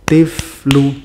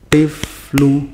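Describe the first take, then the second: The two takes are said the same way.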